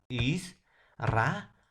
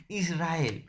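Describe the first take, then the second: First: "Israel" split as "Is... ra... el"; syllable by syllable. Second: Said in the usual way. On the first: Shown as a demonstration. Teacher answers how Israel is divided, syllable by syllable. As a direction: pause between each syllable of "Israel". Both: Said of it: "¿Cómo se va a silabear?".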